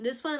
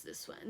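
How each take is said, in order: First: Said in the usual way. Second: Muttered under breath, almost dropped; quiet aside. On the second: Real, not acted. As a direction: say it softly to yourself. Picking a card, muttered aside.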